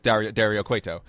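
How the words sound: The name is said with an English accent. "Vampiro doesn't"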